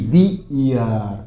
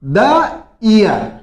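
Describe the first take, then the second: First: दी year said slowly and softer, dee not the; slow corrected answer. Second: द year read out very slowly; slow example. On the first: Teacher giving the correct form to class, slow and soft. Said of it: "तो क्या बोलोगे". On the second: Teacher to class presenting the example, very slow. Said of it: "second देखिए". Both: Shown as a demonstration.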